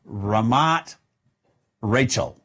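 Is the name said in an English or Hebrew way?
English. The name is read with English pronunciation. "if you're in English"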